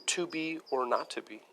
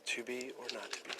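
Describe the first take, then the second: First: Said in the usual way. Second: Much softer, almost to himself; hushed, reflective Hamlet line; soft musing. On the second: Shown as a demonstration. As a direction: let it fall away quietly. Quieter second Hamlet line.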